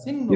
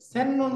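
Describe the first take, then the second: First: The first vowel sounds like 'i'. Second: The first vowel sounds like 'e'. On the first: The speaker calls it right. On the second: The speaker calls it wrong. "সেন্নুন বলা যাবে না"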